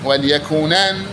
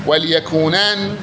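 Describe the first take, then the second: Both takes have the same delivery.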